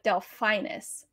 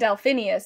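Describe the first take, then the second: First: The name has no extra syllable before the end. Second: The name has an extra syllable before the end. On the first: The speaker calls it right. "It's like Delphinus Sport" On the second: The speaker calls it wrong. "I kept saying Delphinius and it's not"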